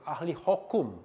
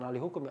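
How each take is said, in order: First: "hukum" said as "hokum"; louder "hukum" mispronounced as "hokum"; u turned to o. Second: Said in the usual way. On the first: Shown as a demonstration. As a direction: say "hukum" with an o in the first syllable. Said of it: "bukan ahli hukum, ya". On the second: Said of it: "bukan ahli hukum".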